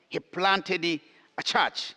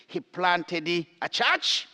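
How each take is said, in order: Both takes have the same delivery.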